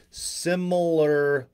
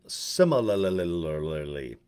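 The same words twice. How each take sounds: First: Similarly said slowly and deliberately; retry similarly carefully, slower and clearer; a clean second attempt at similarly. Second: Slowly stumbling over similarly; tripping over similarly; drawn-out word. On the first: Shown as a demonstration. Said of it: "But I still like similarly". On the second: Real, not acted. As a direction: drag the word similarly out, syllable by syllable. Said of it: "How about kinda like the same?".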